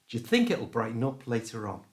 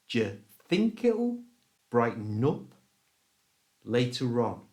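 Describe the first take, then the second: First: The sentence is spoken at a fast pace. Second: The sentence is spoken very slowly. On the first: "And now at normal speed" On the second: "really slowly"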